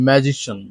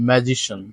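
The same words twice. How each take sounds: Both takes have the same delivery.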